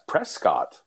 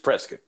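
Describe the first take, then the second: First: It uses the outsider, non-local pronunciation. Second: It uses the local Arizona pronunciation. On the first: The speaker is from outside the area. The speaker calls it wrong. "if you are outside of the state of Arizona or the Southwest region" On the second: The speaker is from the area. The speaker calls it right. "if you're local, I'm letting you know it's Prescott"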